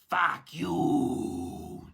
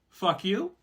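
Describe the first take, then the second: First: It is said with an almost French sound. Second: It is said like an inviting question.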